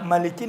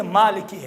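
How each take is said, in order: First: مالکی with a short, quick first "a"; wrong-form demo, مالکی said "maliki"; short first vowel. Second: مالکی with a long first "aa"; corrected form, مالکی said "maaliki"; long first vowel. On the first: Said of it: "مالکی نہیں ہے". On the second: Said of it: "مالکی ہے". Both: Shown as a demonstration.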